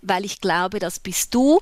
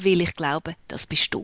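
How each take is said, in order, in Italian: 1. Viene parlato in tedesco standard. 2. Viene parlato in un dialetto regionale.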